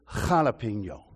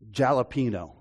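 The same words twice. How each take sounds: First: It starts with a breathy h sound. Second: It starts with an English j sound. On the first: The speaker calls it right. "It's jalapeno" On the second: The speaker calls it wrong. "You don't say jalapeno"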